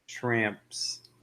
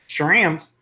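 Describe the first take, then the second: First: It is said in a plain, unaccented voice. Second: It is said in a put-on accent. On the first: The speaker calls it wrong. "Let me try to say it without the accent" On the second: The speaker calls it right. "I have to say with the accent"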